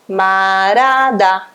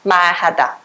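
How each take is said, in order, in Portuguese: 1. O som do H depois do R é apagado. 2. O som do H depois do R é pronunciado. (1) "Ele vai sumir e vai ficar o quê?" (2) "É muito certinho"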